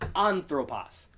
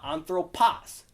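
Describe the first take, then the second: First: The stress falls on the first syllable. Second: The stress falls on a later syllable. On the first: The speaker calls it right. "Because that acute is on that first syllable" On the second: The speaker calls it wrong. "It's not anthropos"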